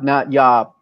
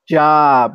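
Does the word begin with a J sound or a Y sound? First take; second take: Y sound; J sound. First: The word begins with a Y sound. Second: The word begins with a J sound. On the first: The speaker calls it wrong. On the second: The speaker calls it right.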